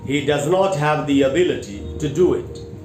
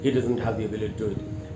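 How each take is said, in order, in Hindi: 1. यह साफ़ और ऊंची आवाज़ में, मध्यम गति से बोला गया है। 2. यह बहुत धीमी आवाज़ में और अस्पष्ट तरीके से बोला गया है। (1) "साफ सुथरे तरीके से ऊंची आवाज़ में सेंटेंस को बोला" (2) "बहुत धीमी आवाज में बोलते हैं, मम्बल करते हैं"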